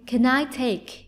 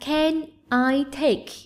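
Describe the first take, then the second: First: The word can is reduced and linked. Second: Each word is said fully and separately.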